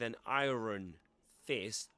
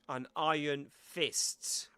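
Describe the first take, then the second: First: It is said with a non-British pronunciation. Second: It is said with a British pronunciation. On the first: The speaker calls it wrong. "Not with an iron fist" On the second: The speaker calls it right. "in British English you say an iron"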